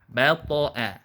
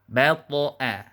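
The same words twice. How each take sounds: First: The final vowel stays thin, like 'a'. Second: The final vowel stays thin, like 'a'.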